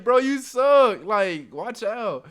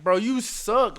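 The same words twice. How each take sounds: First: Much louder, higher and drawn out slow; loud taunt. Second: Said in the usual way. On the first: Retold or imitated. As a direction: lean into the insult, slow and loud. Trash talk repeated harder.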